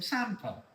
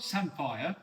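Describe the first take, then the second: First: "samphire" said as SAM-fer; local pronunciation. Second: "samphire" said as SAM-fire; rejected pronunciation. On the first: Teasing James with the local word, SAM-fer pronunciation. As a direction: say "samphire" with a weak -fer ending. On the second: Teasing James with his version, SAM-fire pronunciation. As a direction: say "samphire" with a full -fire ending. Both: Shown as a demonstration. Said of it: "All right, not samphire".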